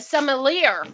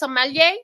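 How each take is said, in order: First: It is said in an exaggerated Texan drawl. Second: It is said in a plain, unaffected accent. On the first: "Let me say it like a Texan might" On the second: "is that how you say it?"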